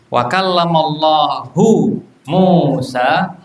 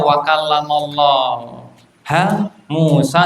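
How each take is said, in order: First: The word Allah ends with a 'hu' sound. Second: The word Allah ends with a 'ha' sound. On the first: Allah is the one who spoke. The speaker calls it right. "menunjukkan bahwasanya yang bicara itu Allah" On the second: Moses is the one who spoke to Allah. The speaker calls it wrong. "Jahmiyah membacanya"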